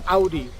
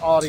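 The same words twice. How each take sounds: First: The first syllable sounds like 'ow'. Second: The first syllable does not sound like 'ow'. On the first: The speaker calls it right. "Think like, ow, I hurt myself" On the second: The speaker calls it wrong. "in the U S we call it Audi a lot of times"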